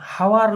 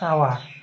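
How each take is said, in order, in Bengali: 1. শব্দটি এইচ ধ্বনি দিয়ে শুরু হয়। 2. শব্দটি এইচ ধ্বনি ছাড়া শুরু হয়। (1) "হাওয়ার নয়" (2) "এইচ এর উচ্চারণটা খুব কম হবে"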